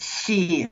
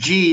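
First: The name begins with a soft 'sh'-like sound. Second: The name begins with a hard 'j' sound. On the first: The speaker calls it right. "it's really pronounced Xi" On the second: The speaker calls it wrong. "G is totally wrong"

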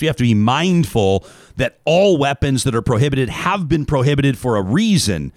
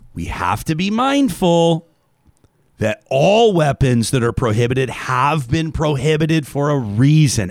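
First: It is read in a neutral, professional tone. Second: It is read as if explaining to a five-year-old.

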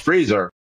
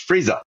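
First: The final R sound is pronounced. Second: The final R sound is dropped. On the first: "freezer because it has an R" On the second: "but in New England, it's freezer"

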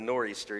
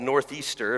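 First: The word is said without a 'th' sound. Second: The word is said with a 'th' sound.

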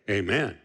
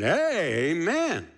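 First: It is said plainly, without special emphasis. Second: It is said emphatically, imitating Heber's way.

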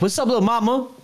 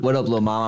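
First: It is said in a high, light, squeaky voice. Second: It is said in a normal, lower voice. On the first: "I'm trying to sound like Tweety, bro" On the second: "You go like"

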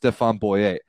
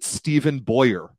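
First: The name is said with French pronunciation. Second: The name is said with English pronunciation. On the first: The speaker calls it right. "he's a Frenchman who it is clearly pronounced Stéphane Boyer" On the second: The speaker calls it wrong. "I can't listen to people pronounce it Stephen Boyer"

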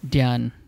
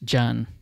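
First: It begins with a D-Y sound. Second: It begins with a J sound. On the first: "they would put a D, D-Y" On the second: "it's just jan"

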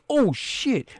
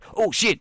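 First: It is said in a plain natural voice. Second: It is said in a put-on imitation voice. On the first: The speaker calls it wrong. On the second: The speaker calls it right.

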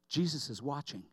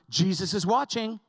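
First: It is said softly. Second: It is said a little louder.

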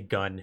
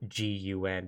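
First: The name is said as one word. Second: The name is spelled out as three letters. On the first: The speaker calls it right. "They don't say gun" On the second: The speaker calls it wrong. "they pronounce it G-U-N"

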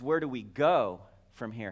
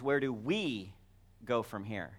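First: The word "go" carries the main stress. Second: The word "we" carries the main stress. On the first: It asks about the way of going. "How do we go?" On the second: It asks about us personally. "that can be a personal question"

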